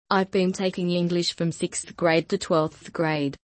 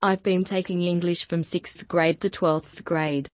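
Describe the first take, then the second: No difference in how they are said.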